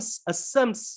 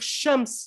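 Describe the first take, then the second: First: The word begins with an s sound. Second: The word begins with an sh sound. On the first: The speaker calls it wrong. "ils disaient sams" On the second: The speaker calls it right. "ils n'arrivaient pas à dire shams"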